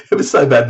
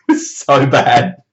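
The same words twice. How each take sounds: First: Said in the usual way. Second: Slow, louder, stretched out; drawn-out dismay. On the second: Real, not acted. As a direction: drag it out in disbelief. Recalling disastrous salad.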